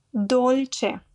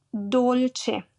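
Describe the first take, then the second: No difference in how they are said.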